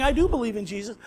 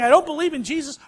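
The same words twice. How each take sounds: First: 'I do believe in Jesus.' with do pressed and a rising end; stress on DO. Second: 'I don't believe in Jesus,' with don't hit hard and fast; stress on DON'T. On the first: Preacher quoting believers, stress on do. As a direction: lean on do to affirm him. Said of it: "or they're saying". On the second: Preacher quoting doubters, stress on don't. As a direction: lean on don't to deny him. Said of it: "people are always saying". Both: Retold or imitated.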